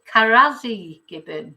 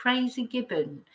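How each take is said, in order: First: "Karazi" said with an extra first syllable; spelt-out pronunciation. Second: Said in the usual way. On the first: Shown as a demonstration. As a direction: read "Karazi" as ka-RA-zi, three syllables. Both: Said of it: "It comes up as".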